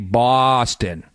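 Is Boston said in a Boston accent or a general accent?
Boston. The first vowel is a Boston-style 'aw' sound. The speaker calls it right. "We say Boston, B A W, like Red Sox, S A W"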